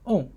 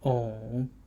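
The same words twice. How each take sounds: First: The pitch falls sharply from high to low. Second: The pitch dips low and then rises.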